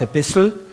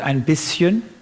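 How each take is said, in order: First: It is said in an Austrian dialect form. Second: It is said in a standard German form. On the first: This is how the speaker actually says it. "Ich sage ein bisschen" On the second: This is how the speaker does not say it. "und nicht ein bisschen"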